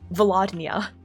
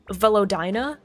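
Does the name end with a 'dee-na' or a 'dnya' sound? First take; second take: dnya; dee-na. First: The name ends with a 'dnya' sound. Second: The name ends with a 'dee-na' sound. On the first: The speaker calls it wrong. "why do you read that with a nya?" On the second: The speaker calls it right. "it's spelled V E L O D Y N A"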